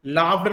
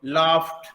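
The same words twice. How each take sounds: First: लाफ्ड with a voiced "d" at the end. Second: लाफ्ड ending in a voiceless "t", like "laaft". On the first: Teacher contrasting the wrong form, लाफ्ड with a voiced d. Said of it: "लाफ्ड नहीं होगा बल्कि". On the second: Teacher giving the corrected form, लाफ्ड with a t. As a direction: close लाफ्ड crisply on t. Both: Shown as a demonstration.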